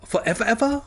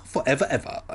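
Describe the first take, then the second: First: High, rising disbelieving question on "Forever, ever"; "Forever, ever" as a high-pitched query; questioning echo. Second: "forever, ever" in a settled, usual pitch; confirming echo. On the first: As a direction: ask "Forever, ever" high, lifting at the end. Incredulous echo before the answer. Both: Acted.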